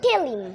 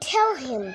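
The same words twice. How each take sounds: First: The h in him is dropped. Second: The h in him is clearly pronounced. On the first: British speakers say it this way. "ব্রিটিশরা বলে" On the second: Local speakers say it this way. "আমরা বলি"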